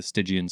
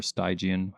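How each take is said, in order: First: Stygian with a short first i, like STIDGE-ee-an; first syllable of Stygian rhyming with "bridge"; short-i pronunciation. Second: Stygian with a long first i, like STY-jee-an; first syllable of Stygian sounding like "sty"; long-i pronunciation. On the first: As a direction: say Stygian with the first vowel as in "sit". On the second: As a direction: say Stygian with the first vowel as in "sky". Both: Shown as a demonstration. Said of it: "however you say it".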